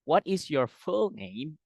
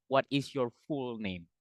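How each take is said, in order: First: Slow, higher question with short U in "full"; correct pronunciation. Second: "full" said as "fool" in the question; wrong pronunciation. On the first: Tutor modelling the question, "full" correctly pronounced with short U. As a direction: say "full" with a short vowel, slowly. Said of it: "pakai U senyum". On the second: Tutor showing what to avoid, "full" mispronounced as "fool". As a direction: lengthen the vowel of "full" to "oo". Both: Shown as a demonstration.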